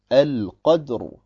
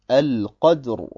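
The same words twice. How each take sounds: Both takes have the same delivery.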